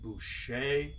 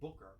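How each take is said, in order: First: The name is said the French way. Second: The name is said the American way. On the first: This is how French speakers say it. "French pronounced it Boucher" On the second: This is how the family says it. "we pronounce it Booker"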